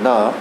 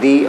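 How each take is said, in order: First: The word ends in a short uh vowel. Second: The word ends in a long ee vowel. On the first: It comes before a consonant sound. "द ये जो है consonant sounds के साथ आता है" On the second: It comes before a vowel sound. "दी जो है vowel sound के साथ आता है"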